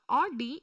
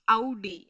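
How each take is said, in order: First: The brand name is pronounced the English way. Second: The brand name is pronounced the German way. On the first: The speaker calls it wrong. "It is not Audi" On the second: The speaker calls it right. "it is Audi"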